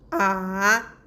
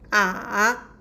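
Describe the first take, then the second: No difference in how they are said.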